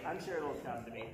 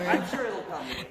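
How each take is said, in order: First: Much lower and softer, to herself; soft aside. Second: Louder, quicker reassurance to the crowd; louder take. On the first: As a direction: mutter it under the breath as an afterthought. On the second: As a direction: say it out loud to the room, a little fast. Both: Shown as a demonstration. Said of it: "repeats it more softly".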